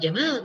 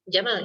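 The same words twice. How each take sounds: First: The second vowel is long. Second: The second vowel is short. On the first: It means handsome or beautiful. "kalau Jamal ganteng, indah, bagus" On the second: It means camel. "Jamal itu onta"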